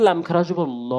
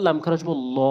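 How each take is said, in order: Both takes have the same delivery.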